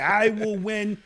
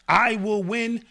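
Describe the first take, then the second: First: It is said flatly, without exclaiming. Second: It is said forcefully, like an exclamation. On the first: "Take away exclamation mark" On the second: "Exclamation mark"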